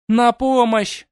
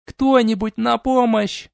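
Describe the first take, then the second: First: Very high, loud cry; calling for help. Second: High, slow drawn-out cry; calling for help. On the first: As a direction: scream for help. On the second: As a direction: wail for anyone to help. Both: Acted. Captive princess calls help.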